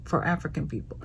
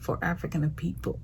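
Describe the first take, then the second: First: Said in the usual way. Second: "African" slips into an odd accent, with an extra syllable before "people"; unplanned odd accent. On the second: Real, not acted. Host declaring love for African people, accidental odd accent. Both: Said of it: "I don't know what accent that was".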